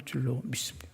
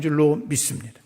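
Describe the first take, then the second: First: Softer, breathy-free whisper of faith; 줄로 믿습니다 whispered very softly; whispered affirmation. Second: Said in the usual way. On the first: Real, not acted. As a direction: whisper the confession intimately. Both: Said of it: "repeated faith formula".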